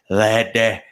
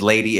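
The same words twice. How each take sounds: First: Lady said the Cockney way, slowed and drawn out. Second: Said in the usual way. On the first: Shown as a demonstration. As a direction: drop into a Cockney accent on lady. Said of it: "Cockney British accent". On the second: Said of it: "when she says lady".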